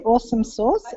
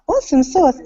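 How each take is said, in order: First: Lightly imitated American Southern accent; a hint of country Southern on "Awesome sauce". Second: Said in the usual way. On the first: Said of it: "she said it in a Southern country accent". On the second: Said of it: "I said it in an Aussie accent".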